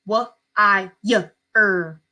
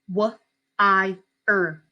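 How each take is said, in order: First: A y sound is inserted before the er. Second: No y sound comes before the er. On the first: The speaker calls it wrong. "A lot of kids will accidentally do this" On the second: The speaker calls it right. "here's how it should look. Very clean cut"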